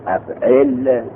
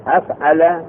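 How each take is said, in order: First: افعل drawn out, second vowel i; verb pattern pronunciation. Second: افعل ending in open -ala; verb pattern pronunciation. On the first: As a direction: say افعل slowly as af'il, with an i in the second syllable. (تلفظ افعل با کسرهٔ عین: اَفعِل) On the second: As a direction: say افعل as af'ala, with a-vowels throughout. (تلفظ افعل با فتحهٔ عین و لام: اَفعَلَ) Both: Shown as a demonstration. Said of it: "یکی وزن".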